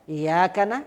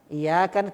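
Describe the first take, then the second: Both takes have the same delivery.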